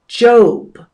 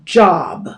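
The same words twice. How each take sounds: First: The vowel is long, as in 'robe'. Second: The vowel is short, as in 'rob'. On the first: It is the name of a biblical figure. "in this context, we would pronounce that Job" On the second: It means work or employment. "usually is pronounced job"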